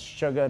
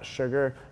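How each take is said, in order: First: The word ends without an R sound. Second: The word ends with a hard R sound. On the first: The speaker calls it right. "no hard R" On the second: The speaker calls it wrong. "not sugar"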